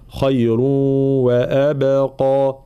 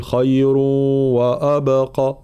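First: "خير وأبقى" very slowly with a thin واو and only the قاف heavy; correct recitation. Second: "خير وأبقى" with a heavy, dark واو and vowels, showing the mistake; wrong recitation. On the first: Teacher giving the correct reading, slow. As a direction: keep the واو in "وأبقى" light. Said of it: "أولًا ترقيق الواو". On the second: Teacher imitating a student's error, slow. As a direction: thicken the واو in "وأبقى" on purpose. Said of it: "فلا نقول". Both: Shown as a demonstration.

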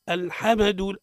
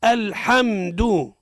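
First: الحمد with an extra vowel after م, "al-hama-du"; wrong echoing meem in الحمد; bounced meem. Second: الحمد slow and loud, m hummed without a bounce; firm, drawn-out model of الحمد with closed meem; still, held meem. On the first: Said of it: "الخطأ في الميم من أوجه قلقلتها". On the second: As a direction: hold the م in الحمد, "al-hamm-du". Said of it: "مش على كيفك". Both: Shown as a demonstration.

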